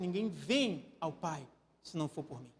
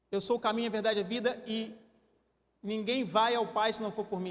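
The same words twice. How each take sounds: First: Lower, softer with "vem"; gentle invitation to come; soft correct version. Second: Plain quote with "vai" stressed; wrong version with vai. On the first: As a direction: say "vem" tenderly and low. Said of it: "Ele disse". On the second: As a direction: say "vai" as if sending away. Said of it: "Jesus não disse". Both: Shown as a demonstration.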